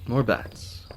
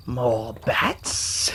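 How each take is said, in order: First: Said in the usual way. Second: Maniacal villain voice with a high cackle; Joker. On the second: Acted. Player spotting more bats, as a cackling Joker impression. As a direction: say it menacingly, then burst into a wild high laugh. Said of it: "That's my Joker impression".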